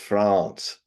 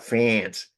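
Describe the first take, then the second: First: The name is pronounced the native way. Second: The name is pronounced the English way. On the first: The speaker calls it right. "it's France" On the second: The speaker calls it wrong. "it's not France"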